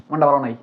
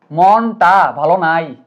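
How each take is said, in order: First: Said in the usual way. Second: মনটা ভালো নাই very slow, each word stretched; drawn-out emphasis. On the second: Shown as a demonstration. (মনটা ভালো নাই, প্রতিটা শব্দ টেনে ধীরে) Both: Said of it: "ওয়ার্ডটা ভালো করে খেয়াল করো".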